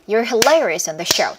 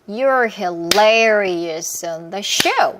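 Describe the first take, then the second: First: It is spoken faster still. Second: It is spoken at a moderate pace.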